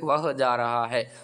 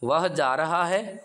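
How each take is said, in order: First: The voice falls at the end, like a statement. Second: The voice rises at the end, like a question. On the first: It states that he is going. "అతడు వెళ్తున్నాడు" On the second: It asks whether he is going. "ఇంకోటి ఇలాగా మనం tone మారినట్లే"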